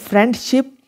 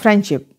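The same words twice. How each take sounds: First: The d sound is clearly pronounced. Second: The d sound is left out. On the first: "बजाय इसके कि वो ये कहें" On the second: "डी को जो है रिमूव कर देंगे"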